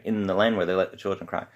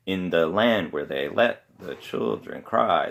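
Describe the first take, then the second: First: Said in the usual way. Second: Slow lilt leaning on "land", "let" and "cry"; measured waltz beat, "land" and "cry" drawn out; waltz rhythm. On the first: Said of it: "you go from that march rhythm". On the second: Shown as a demonstration. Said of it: "waltz rhythm".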